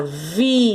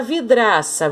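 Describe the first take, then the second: First: Vidraça in three separate beats, vi, dra, ça; syllable by syllable. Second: Said in the usual way. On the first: Shown as a demonstration. Teacher separating syllables for pupils, vidraça broken into vi, dra, ça. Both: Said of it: "Se eu separar vidraça".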